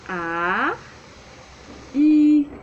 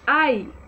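First: The two vowels are said slowly and separately. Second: The two vowels are said quickly as one. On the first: "como vai ficar?" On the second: "Mais rápido"

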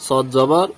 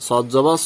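Both takes have the same delivery.

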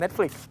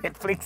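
First: The pitch goes high, then drops low. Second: The pitch stays fairly level throughout. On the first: This is the English way of saying the name. "ขึ้นสูงลงต่ำ" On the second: This is how most Thai people say the name. "95%, เลยเขาเรียกว่า"

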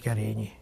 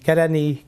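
First: The name is said the native Hungarian way. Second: The name is said with flattened foreign vowels. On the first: The speaker calls it right. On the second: The speaker calls it wrong.

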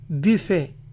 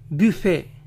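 First: It is said the French way, ending in e. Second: It is said the French way, ending in e.

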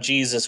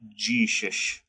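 First: Jesus is said in a plain, neutral accent. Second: Jesus is said in a Southern accent, like 'Jeeshush'.

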